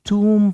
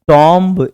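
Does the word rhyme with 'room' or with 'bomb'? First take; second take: room; bomb. First: The word rhymes with 'room'. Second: The word rhymes with 'bomb'. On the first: The speaker calls it right. "आपको टूम पढ़ना है" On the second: The speaker calls it wrong. "इसको टॉम्ब नहीं पढ़ना है"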